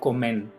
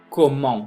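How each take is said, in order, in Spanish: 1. El 'en' se dice como un 'en' normal. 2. El 'en' se dice como un 'on' nasal. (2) "pronúncienmela como on"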